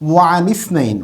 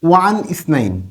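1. দ্বিতীয় শব্দটি তার প্রথম স্বরধ্বনি ছাড়া যুক্ত করে বলা হয়। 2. দ্বিতীয় শব্দের প্রথম স্বরধ্বনিটি আলাদাভাবে উচ্চারিত হয়। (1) "এভাবে পড়তে হবে" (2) "আপনি যদি বলেন ওয়ান ইসনাইন, তখন বুঝবে যে আপনি এবারতগত আপনার দুর্বলতা আছে"

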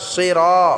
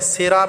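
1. 'r'-এর পরের স্বরটি টেনে পড়া হয়। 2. 'r'-এর পরের স্বরটি ছোট। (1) "রটা আমরা এক আলিফ টেনে পড়ব" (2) "সিরা বললে হবে না"

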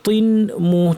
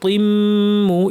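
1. m-এর আগে n সাউন্ডটা রাখা হয়। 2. n সাউন্ড দ্বিগুণ m-এর সাথে মিশে যায়। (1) "তিম এখানে তিন মু ছিল" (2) "তিম মু ইদগাম করে পড়াচ্ছে"

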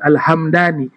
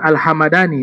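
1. Tidak ada vokal yang diucapkan di antara m dan d. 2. Ada vokal yang diucapkan di antara m dan d. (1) "Yang betul mimnya sukun" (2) "Kalau dibaca bukan Al-Hamadani ya, ... keliru"

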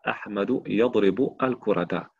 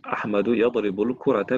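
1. Les mots sont prononcés séparément, sans liaison. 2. Les mots sont liés ensemble en un seul flux. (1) "on ne dit pas" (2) "on met la liaison"

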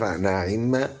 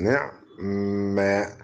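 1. الحركة الأولى 'a'، ثم 'i' كاملة. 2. الحركة الأولى 'i'، و'ain' ساكنة. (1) "فتحوا النون هرب بالتقاء الكسرتين، وكسروا العين" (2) "والاسكان"

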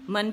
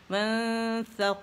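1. n واضح اور پوری طرح ادا کیا گیا ہے۔ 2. n ناک کی گنگناہٹ میں چھپا ہوا ہے۔ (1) "میں نے نون کا اظہار کیا" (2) "اخفاء ہے"

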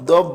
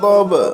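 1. শেষের b সাধারণ, কোনো ধাক্কা নেই। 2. শেষের b ধাক্কা দিয়ে বলা হয়। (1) "দব বলিনে" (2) "বারে ধাক্কা দিয়েছি"

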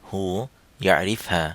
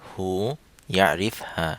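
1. এটি সংক্ষিপ্ত সৌদি উপভাষার রূপে বলা হয়েছে। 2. এটি সংক্ষিপ্ত সৌদি উপভাষার রূপে বলা হয়েছে।

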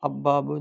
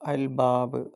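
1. 'l' ഇരട്ടിച്ച 'b'യിൽ ലയിക്കുന്നു. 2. 'l' 'b'ക്ക് മുമ്പായി ഉച്ചരിക്കുന്നു. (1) "അബ്ബാബ് എന്നോ ... പറയാൻ പാടില്ല" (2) "കമരിയാവുമ്പോൾ അത് ഉച്ചരിക്കണം"

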